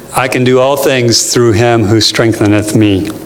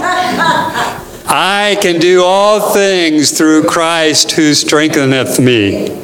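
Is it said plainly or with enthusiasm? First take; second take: plainly; enthusiasm. First: It is read plainly, without special enthusiasm. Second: It is said with enthusiasm and conviction.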